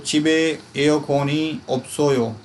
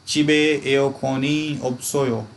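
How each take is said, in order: No difference in how they are said.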